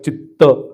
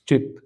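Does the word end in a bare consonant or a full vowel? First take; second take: full vowel; bare consonant. First: The word ends with a full vowel after t. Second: The word ends on a bare t sound. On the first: The speaker calls it wrong. "it's not Chitta" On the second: The speaker calls it right. "it's Chit. The ta is half"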